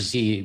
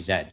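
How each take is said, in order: First: It is said the American way. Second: It is said the Canadian way.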